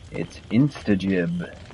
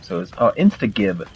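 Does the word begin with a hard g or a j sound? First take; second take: j sound; hard g. First: The g is said as in giblets. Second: The g is not said as in giblets. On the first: The speaker calls it right. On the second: The speaker calls it wrong.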